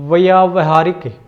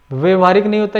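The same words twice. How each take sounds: First: व्यावहारिक with a long "aa" after "vy", clearly stretched; correct form shown. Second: व्यवहारिक with a short "vya", no long "aa"; wrong form shown. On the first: Teacher correcting the class with the right vowel, stretched. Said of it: "व्यावहारिक ये शुद्ध शब्द है". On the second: Teacher contrasting the common error for the class, said as a mistake. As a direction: mark व्यवहारिक as the mistaken short-vowel version. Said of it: "व्यवहारिक गलत है". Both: Shown as a demonstration.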